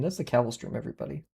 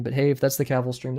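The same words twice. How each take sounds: First: Softer echo. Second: Said in the usual way. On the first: Real, not acted. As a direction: repeat "that's the Cavill stream" much softer, falling.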